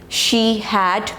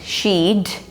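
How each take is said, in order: First: Two full words are said separately. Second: The words merge into one short syllable.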